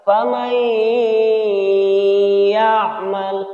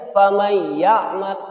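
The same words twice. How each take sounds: First: The nasal sound is held for two beats. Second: The nasal sound is cut short, not held. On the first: The speaker calls it right. "Jadi cara membacanya ini adalah faman ya'mal" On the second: The speaker calls it wrong. "langsung saja faman ya'mal tanpa ditahan dua harokat"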